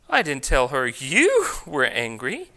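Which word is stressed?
you. The stress falls on the word you. A different person was said to be angry. "I told her someone else was angry"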